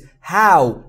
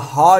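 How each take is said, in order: First: The vowel glides from ah to oo. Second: The vowel is a plain ah sound. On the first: The speaker calls it right. "او او صداش به این صورته" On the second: The speaker calls it wrong. "هو یا ها نیست"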